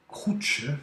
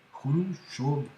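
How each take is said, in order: First: Khrouchtchev said the French way, ending in Tchev; wrong French way. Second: Khrouchtchev said as Hrouchof, softly with a final v; Russian way. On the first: Teacher showing the wrong French Khrouchtchev. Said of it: "si nous on dit". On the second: Teacher giving the Russian Khrouchtchev. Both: Shown as a demonstration.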